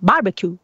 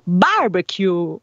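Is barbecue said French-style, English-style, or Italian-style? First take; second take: English-style; Italian-style. First: The word is said with an English pronunciation. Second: Stress falls on the A, with a long ending. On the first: "gli inglesi che fanno barbecue" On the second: "mettiamo l'accento sulla A e poi andiamo lunghi in fondo"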